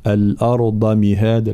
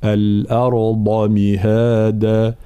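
First: "الأرض" said with a light ض; the careless version, with the ض unemphasized; wrong thin dad. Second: "الأرض مهادا" with a full, emphatic ض and a slow drawn "مهادا"; correct heavy dad. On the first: Teacher showing students the wrong reading of the ض. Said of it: "قريناها ض". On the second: Teacher to students, the correct emphatic ض, slow. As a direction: stretch it out and make the ض heavy. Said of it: "هكذا". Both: Shown as a demonstration.

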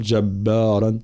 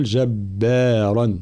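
First: جبارا with every letter made heavy; the wrong way: thicken all of جبارا; جبارا, heavy throughout. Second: جبارا with a heavy r and the other letters light; جبارا, only the r heavy; correct جبارا. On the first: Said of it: "فلا نقول جبارا". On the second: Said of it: "بل نقول جبارا". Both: Shown as a demonstration.

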